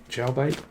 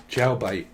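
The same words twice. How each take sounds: First: "Jailbait" with a questioning lift at the end; questioning rise. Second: Said in the usual way. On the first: Real, not acted. Reader puzzling over a word, questioning rise on "Jailbait". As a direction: ask "Jailbait" as a question, voice rising.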